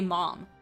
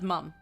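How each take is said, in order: First: The vowel is open, as in 'cot'. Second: The vowel is central, as in 'cut'. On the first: This form is not used here. "he doesn't say mom" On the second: This form is used here. "He says mum"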